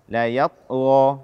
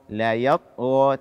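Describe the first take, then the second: The two takes are said the same way.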